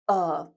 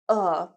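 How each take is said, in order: First: It is said with a short reduced 'uh' vowel. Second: The same.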